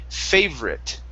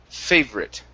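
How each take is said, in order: The two takes are said the same way.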